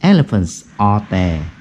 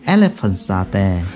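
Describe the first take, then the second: First: Each word is said separately, without linking. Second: The final s links smoothly into the next word. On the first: "bố hỏi từng câu một rồi thế này này" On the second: "bố nối âm nhá"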